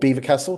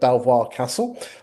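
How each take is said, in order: First: The name is said like the word beaver. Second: The name is said like the spelling, bel-vwah. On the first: This is how local people say it. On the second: This is how people who are not from the area say it.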